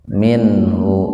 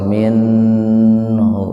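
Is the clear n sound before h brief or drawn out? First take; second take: brief; drawn out. First: The n is sounded clearly but only briefly. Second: The n is sounded clearly and held longer. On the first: The speaker calls it right. "dibaca idharnya sepintas saja" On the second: The speaker calls it wrong. "nggak usah minhu, nggak usah begitu"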